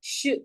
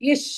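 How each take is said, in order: First: The sh sound is said alone, no vowel. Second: A short vowel comes before the sh sound. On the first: The speaker calls it right. "like that only you should say when it is with the halant" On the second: The speaker calls it wrong. "ish அப்படி சொல்லக்கூடாது"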